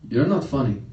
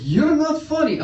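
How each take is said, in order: First: Said in the usual way. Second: High, loud mock-exasperated repeat; insistent dad. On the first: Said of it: "he goes". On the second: Dad insisting, repeats himself louder.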